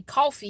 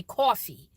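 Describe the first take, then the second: First: Coffee with the speaker's usual vowel; coffee, not in New Jersey style; standard coffee. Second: Coffee with a rounded New Jersey "aw"; imitated New Jersey coffee; New Jersey accent. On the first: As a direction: say coffee the plain Chicago way. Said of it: "How y'all don't say coffee". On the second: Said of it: "you say coffee". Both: Shown as a demonstration.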